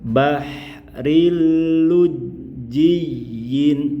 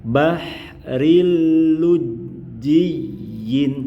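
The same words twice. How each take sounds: No difference in how they are said.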